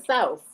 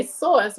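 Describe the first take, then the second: First: "sauce" with a gliding OW vowel; "sauce" opened into an OW sound; Southern sauce. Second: "sauce" with a rounded AW, like SAWSS; "sauce" with a Northern AW vowel. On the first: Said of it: "rather than sauce". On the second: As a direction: say "sauce" the New York way, close to "source". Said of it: "I still say sauce rather than sauce". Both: Shown as a demonstration.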